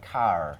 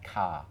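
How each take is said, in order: First: The word ends with an audible R sound. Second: The word ends in a vowel without R. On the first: "in America, they have a bit of an R at the end" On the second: "in both England and, well, many parts of England and in Australia, we tend to say the schwa sound"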